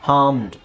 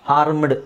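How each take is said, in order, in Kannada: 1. r ಶಬ್ದ silent ಆಗಿದೆ. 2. r ಶಬ್ದ ಸ್ಪಷ್ಟವಾಗಿ ಉಚ್ಚರಿಸಲಾಗಿದೆ. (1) "ಆರ್ ಸೈಲೆಂಟ್ ಮಾಡ್ಕೊಳ್ಳಿ" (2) "ಅಲ್ಲ"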